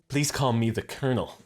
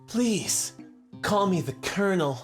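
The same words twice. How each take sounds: First: It is said in a plain, ordinary voice. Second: It is said in a smooth, suave, sultry voice.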